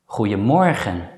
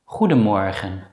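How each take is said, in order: First: The middle consonant sounds like a y. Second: The middle consonant sounds like a d. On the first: "many native Dutch speakers pronounce it as je" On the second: "you may also pronounce the letter D normally as D"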